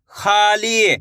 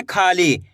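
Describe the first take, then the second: First: खाली stretched out, both vowels held long; sounded-out joining. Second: Said in the usual way. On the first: Shown as a demonstration. Teacher joins the letters for learners, खाली drawn out. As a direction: draw out खाली as two long joined syllables, खा-ली. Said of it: "एक अक्षर का उच्चारण करके इनको आपस में मिला के". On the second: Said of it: "कैसे पढ़ेंगे?".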